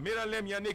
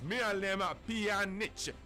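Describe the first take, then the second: First: The surname begins with a 'y' sound. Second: The surname begins with a 'p' sound. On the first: The speaker calls it wrong. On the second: The speaker calls it right.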